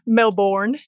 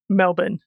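First: Melbourne is said in an American accent. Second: Melbourne is said in an Australian accent. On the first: The speaker calls it wrong. "Can you say it in an American accent?" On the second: The speaker calls it right. "it is Melbourne"

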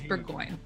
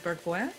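First: The name is pronounced the English way. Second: The name is pronounced the French way. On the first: This is how the family says it locally. "we grew up in Nova Scotia... And so it's" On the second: This is how French speakers would say it. "if we were in a French-speaking place, it would be"

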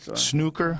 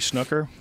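First: It is said in an English accent. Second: It is said in a plain American accent.

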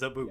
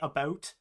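First: The vowel sounds like the one in 'boot'. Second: The vowel sounds like the one in 'out'. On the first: This is the stereotype others attribute to Canadians. The speaker calls it wrong. "No Canadian says a boot" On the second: This is how the speaker actually says it. The speaker calls it right. "I say about"

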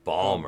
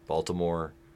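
First: It is squeezed into two short syllables. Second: All three syllables are said in full.

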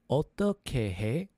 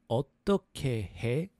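No difference in how they are said.

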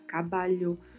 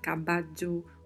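First: The double L sounds like Portuguese lh. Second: The double L sounds like dj. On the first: "um som de LH" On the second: "um som de DJ"

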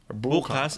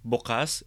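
First: The stress is on the first syllable. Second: The stress is on the last syllable. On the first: It means tomorrow. "Bukas is tomorrow" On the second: It means open. "Bukas is open"

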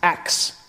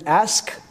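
First: The word ends with a k then s sound. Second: The word ends with an s then k sound. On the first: The speaker calls it wrong. "mispronounce certain words" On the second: The speaker calls it right. "pronouncing the word ask"

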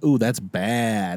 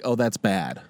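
First: It sounds impressed, meaning cool. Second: It sounds disapproving, meaning not good.

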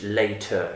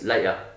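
First: It is said in a posh British accent. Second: It is said in a casual, non-posh accent. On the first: "that posh British later" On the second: "It's not the same as"

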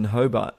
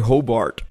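First: It is said with a non-American pronunciation. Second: It is said with an American pronunciation.

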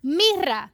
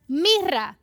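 First: The r sound is strongly rolled. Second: The same.

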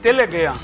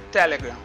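First: The word is pronounced the Brazilian Portuguese way. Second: The word is pronounced the English way.

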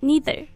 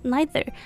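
First: It is said with an American accent. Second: It is said with a British accent. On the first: "美式呢读neither" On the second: "英式呢会读neither"

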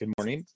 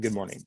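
First: It sounds like a friendly greeting. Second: It sounds like a curt dismissal.

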